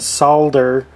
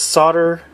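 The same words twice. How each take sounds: First: It is said with a British pronunciation. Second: It is said with an American pronunciation. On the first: "on the other side of the pond" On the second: "in the United States"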